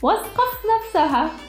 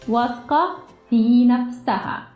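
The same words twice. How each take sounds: First: It is said fast. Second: It is said more slowly.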